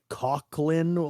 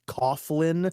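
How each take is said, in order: First: The name is said with a K sound. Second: The name is said without a K sound. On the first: "the guy pronounces it Coughlin like it has a K in it" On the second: "So my mind, that would be Coughlin"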